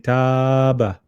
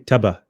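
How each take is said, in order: First: The vowel is lengthened for a long time. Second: The vowel is short, with no lengthening. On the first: "We won't pull it too much. We won't say" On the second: "ignore the pull. We won't say"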